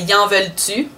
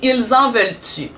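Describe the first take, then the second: First: The first word is reduced to a short 'y'. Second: The first word is said fully as 'ils'. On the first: The speaker calls it right. "on dirait" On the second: The speaker calls it wrong. "il a écrit ... On dirait pas ça"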